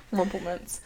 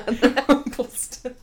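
First: Said in the usual way. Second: "Rumpelstitz" drawn out through laughter, ending in "-stitz"; mock mispronunciation. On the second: Repeats co-host's garbled name, laughing.

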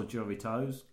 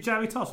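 First: "Jaritos" ending in a long "toes"; alternative pronunciation. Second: "Jaritos" ending in a short "toss"; alternative pronunciation. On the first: Asking co-host how to say the drink, "Jaritos" ending "-toes". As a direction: say "Jaritos" as JA-ree-toze, long O at the end. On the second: Asking co-host how to say the drink, "Jaritos" ending "-toss". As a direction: say "Jaritos" as JA-ree-toss, short last syllable. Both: Shown as a demonstration. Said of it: "Is it Jaritos or Jaritos".

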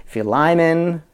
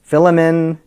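First: "Philemon" said fee-LYE-mun, long I in the middle; Philemon, one way. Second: "Philemon" said FILL-eh-mun, short vowels; Philemon, another way. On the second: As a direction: say "Philemon" as FILL-eh-mun, stress on the first syllable. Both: Shown as a demonstration. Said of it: "If I'm saying a Philemon a few different ways".

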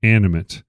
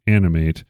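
First: "animate" with a reduced final "mit"; adjective pronunciation of animate. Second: "animate" with a full final "mate"; verb pronunciation of animate. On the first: Host showing the second listing, "animate" ending in an unstressed "mit". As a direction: end "animate" on a short, unstressed "mut". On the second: Host defining the verb for listeners, "animate" rhyming with "mate". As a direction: end "animate" on a long AY sound, like "mate". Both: Shown as a demonstration. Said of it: "it has a different pronunciation".

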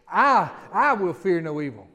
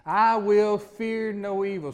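First: Loud, slow, stress on I; mean every word, leaning on I; like you mean it. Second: Slow declaration, each word weighed; slow, deliberate. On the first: Preacher urging the church to say it with conviction, loud and slow. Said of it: "Say it like you mean it". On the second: Preacher leading the congregation in a slow, firm declaration. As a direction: lead the church in saying it slowly. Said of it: "Say that again with me". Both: Shown as a demonstration.

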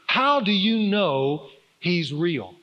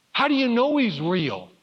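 First: Drawn-out, weighty question; slow emphatic question. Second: Son's question, higher-pitched, lightly imitated; doubting son. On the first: Real, not acted. Preacher putting his son's question to the congregation, slow and emphatic. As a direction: stretch each word for the listeners to ponder. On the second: Son asking his dad how he knows, imitated doubt. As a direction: voice a child's earnest doubt, pitched up.

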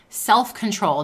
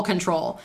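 First: Self-control punched louder, SELF lifted; Self-control, firm and loud; stress on Self-control. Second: Said in the usual way. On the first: Shown as a demonstration. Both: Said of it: "not control".

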